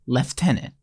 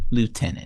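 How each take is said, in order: First: The word is said the British way. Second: The word is said the American way.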